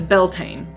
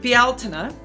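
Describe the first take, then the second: First: It is pronounced the anglicized English way. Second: It is pronounced the Irish Gaelic way. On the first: "the anglicized version" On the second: "That's the way that it's pronounced in Gaelic Irish"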